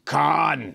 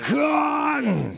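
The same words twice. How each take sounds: First: It is said calmly, just read out. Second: It is said angrily, like shaking a fist.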